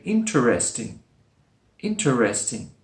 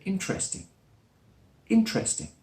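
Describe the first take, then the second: First: "interesting" as in-ter-es-ting; four-syllable interesting. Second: "interesting" as in-tres-ting; three-syllable interesting. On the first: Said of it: "with four syllables". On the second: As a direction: drop one syllable from "interesting". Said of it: "One is dropped". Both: Shown as a demonstration.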